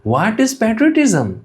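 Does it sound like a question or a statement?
question. It is said with an asking, questioning tone.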